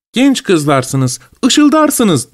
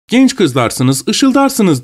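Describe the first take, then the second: First: "ışıldarsınız" sung up high; quoting the pun. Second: Lightly voiced pun, ışıldarsınız rising high; quoting the pun. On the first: Retold or imitated. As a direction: lilt the rhyme to show it off. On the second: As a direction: recite the rhyme with a playful lift. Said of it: "diyor bize".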